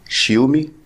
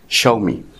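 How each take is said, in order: First: The name begins with a sh sound, shee. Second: The name begins with a sh sound, sha. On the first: The speaker calls it wrong. "او شيومي" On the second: The speaker calls it right. "وهي في الواقع اسمها شاومي"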